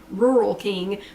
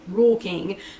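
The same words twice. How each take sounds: First: Rural is pronounced the standard way. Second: Rural is pronounced the local way. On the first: This is how the name is usually said. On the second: This is how people around here say it.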